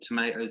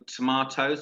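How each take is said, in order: First: It is said with an American pronunciation. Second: It is said with a British pronunciation. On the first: This is how the listener's country says it. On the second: This is how the speaker's own country says it.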